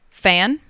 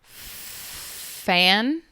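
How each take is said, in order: First: The word is said at a normal speed. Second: The word is drawn out very slowly. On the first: "I'm going to say each word normally first" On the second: "then I will repeat each word very slowly"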